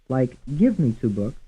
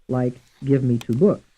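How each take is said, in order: First: The stress falls on the word give. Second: The stress falls on the word books. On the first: "Some will be stressed on the first syllable" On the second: "And some stressed on the fourth syllable"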